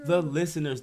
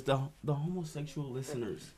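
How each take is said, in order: First: Said in the usual way. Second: Homosexual said softly, almost whispered; lowered voice. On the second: Real, not acted. Host naming his listeners, afraid of getting canceled, lowered voice. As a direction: drop your volume cautiously on the touchy word. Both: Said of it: "why you whisper the word homosexual".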